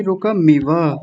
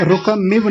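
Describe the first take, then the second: First: रुकमिव with a full short a after क and after the final व; correct रुकमिव. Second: रुकमिव with the vowel after क swallowed and the final व cut short; mispronounced रुकमिव. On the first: Teacher correcting a student's chanting, full final vowel in रुकमिव. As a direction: sound out रुकमिव as ru-ka-mi-va. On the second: Teacher showing a student the slip in रुकमिव, wrongly clipped final vowel. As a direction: say रुकमिव the wrong way, ending on a bare v. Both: Shown as a demonstration. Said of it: "रुकमिव नहीं".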